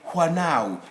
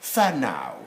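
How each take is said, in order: First: The word begins with a W sound. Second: The word begins with an F sound. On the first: The speaker calls it wrong. "most of you would be likely to say Whanau. It's not Whanau" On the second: The speaker calls it right. "New Zealand English, this is Fanau. ... F, not wa"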